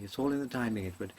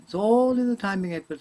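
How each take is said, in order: First: Said in the usual way. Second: High, loud punchy delivery; comedian's punchline. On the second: Retold or imitated. Loud punchy comedian's line, high, to the young actor Edward. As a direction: punch it like a seasoned comic. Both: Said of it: "a great comedian said this to me".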